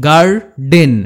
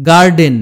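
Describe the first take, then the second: First: "garden" broken in two, গার, pause, ডেন; teacher sounding out "garden" in two beats; split into syllables. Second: Said in the usual way. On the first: Shown as a demonstration. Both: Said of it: "দুটো সিলেবেলে ভাঙতে হয়".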